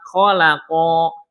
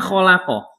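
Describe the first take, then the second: First: The final vowel is drawn out long. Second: The final vowel is kept short. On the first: Two beings did the creating. The speaker calls it wrong. "Harusnya pendek. Dia panjang. Bacanya gini" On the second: One being did the creating. The speaker calls it right. "Harusnya khalaqa"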